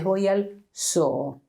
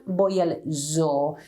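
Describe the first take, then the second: First: Zoo with an unvoiced s; Spanish s sound. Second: Zoo with a buzzing z; voiced English z. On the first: Teacher showing the correct Spanish z. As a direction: zoo said soo. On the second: Teacher showing the wrong z. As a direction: zoo slowly, z vibrating. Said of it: "It's not". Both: Shown as a demonstration.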